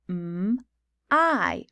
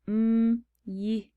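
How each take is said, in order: First: The word ends with an 'eye' vowel sound. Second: The word ends with a consonant 'y' sound. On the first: The speaker calls it right. "This word is actually pronounced" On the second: The speaker calls it wrong. "you might say"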